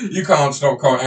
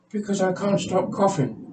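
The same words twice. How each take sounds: First: Said in the usual way. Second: "can't stop coughing" in a much higher put-on patient voice. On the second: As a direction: deliver the punchline as the squeaky patient. Patient delivers pun.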